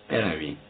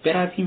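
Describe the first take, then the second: First: Quiet, lower «برویم» with a falling close; low aside. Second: Higher «برویم» with a pressing rise; insistent. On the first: Doctor quietly urging Razumikhin to leave. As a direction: murmur «برویم» as a hint. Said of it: "زوسیموف با سر به رازومیخین اشاره کرده گفت". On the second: Doctor insisting Razumikhin come away, higher. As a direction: repeat «برویم» firmly, insisting. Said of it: "پزشک با اصرار گفت". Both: A narrator's reading.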